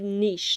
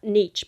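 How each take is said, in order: First: It is said in a French-sounding way. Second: It is said in a plain English way. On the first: The speaker calls it right. "I said niche, ... because it sounds French" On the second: The speaker calls it wrong. "not niche"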